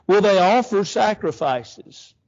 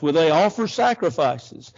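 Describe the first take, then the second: First: Louder, slower sarcastic jab; sarcasm. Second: Said in the usual way. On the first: Acted. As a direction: throw the question out sneering. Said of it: "this is sarcasm at its greatest". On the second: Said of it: "look at his ridicule".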